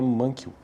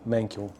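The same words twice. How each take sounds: First: The name has a Portuguese-style pronunciation. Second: The name has an English-style pronunciation. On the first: "estamos no Brasil, então eu pronuncio do jeito que parece para mim aqui" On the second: "pronunciar isso de forma correta mesmo"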